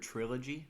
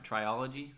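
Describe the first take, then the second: First: The word is said with three syllables. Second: The word is said with an extra syllable.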